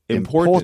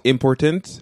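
First: The stress falls on the second syllable. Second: The stress falls on the last syllable. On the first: The speaker calls it right. "So in English, the stress is on the second syllable" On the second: The speaker calls it wrong. "Not important"

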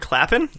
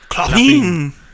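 First: It is said with a plain English accent. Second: It is said with a French accent.

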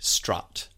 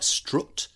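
First: The word is said in an RP accent. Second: The word is said in a Yorkshire accent. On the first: "in RP, the word strut would be strut" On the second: "In Yorkshire, it's the vowel changes to a strut"

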